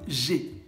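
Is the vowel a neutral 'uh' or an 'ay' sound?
ay sound. The vowel is a clear 'ay' sound. "vont peut-être vous dire j'ai"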